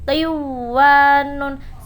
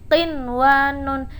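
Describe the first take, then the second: First: The n merges into the w and disappears. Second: The n is pronounced clearly before the w. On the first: The speaker calls it wrong. "Tidak boleh dibaca qiwanun" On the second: The speaker calls it right. "Cara membacanya qinwanun"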